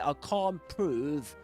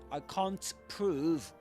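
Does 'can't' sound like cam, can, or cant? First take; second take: can; cant. First: The T in can't is dropped. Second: The T in can't is fully pronounced. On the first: "you will surely drop the T" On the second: "rather than saying"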